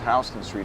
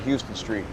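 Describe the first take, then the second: First: Houston is not said like the Texas city. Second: Houston is said like the Texas city. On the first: The speaker calls it right. "it's pronounced Houston Street" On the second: The speaker calls it wrong. "not Houston Street"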